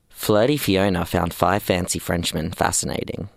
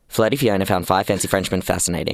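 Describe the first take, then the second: First: It is said slowly. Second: It is said fast.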